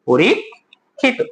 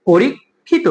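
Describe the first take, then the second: First: পরীক্ষিত slowly, as "po-rik... khi-to"; syllable-by-syllable pronunciation. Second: Said in the usual way. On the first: Shown as a demonstration. Teacher models it for students, পরীক্ষিত in slow pieces. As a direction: break পরীক্ষিত after a rising "porik". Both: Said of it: "এটার উচ্চারণ কি হবে?".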